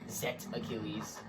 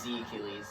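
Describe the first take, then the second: First: The letter is pronounced 'zet'. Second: The letter is pronounced 'zee'. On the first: The speaker calls it wrong. "A lot of people said Zet" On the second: The speaker calls it right. "But it's Z Achilles"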